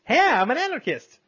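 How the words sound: It is said in a cheerful, excited tone. The speaker is happy about the idea.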